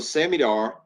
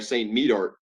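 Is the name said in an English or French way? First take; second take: French; English. First: The name is run together quickly with French sounds. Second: The name is said slowly with English sounds.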